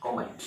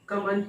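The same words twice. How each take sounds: First: "कमेंट" with British o, "ko-ment"; British pronunciation. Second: "कमेंट" with neutral first vowel, "kuh-ment"; alternative pronunciation. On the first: Teacher to followers of British English, British pronunciation. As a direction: round the first vowel of "कमेंट". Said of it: "आप British English follow करते हैं". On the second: Teacher offering learners the other option, alternative pronunciation. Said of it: "नहीं तो कमेंट भी बोल सकते हैं". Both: Shown as a demonstration.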